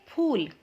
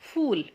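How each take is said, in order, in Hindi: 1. यह महाप्राण p ध्वनि से शुरू होता है। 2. यह अंग्रेज़ी fool जैसा लगता है, f से शुरू होता है। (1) "इसे क्या कहेंगे?" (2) "फूल का मतलब तो मूर्ख होता है"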